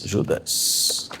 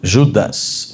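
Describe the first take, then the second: First: Whispered Judas, soft and breathy; softly whispered repetition of Judas. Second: Said in the usual way. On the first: Real, not acted. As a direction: drop to a whisper on the name Judas. Repeats the name in a whisper.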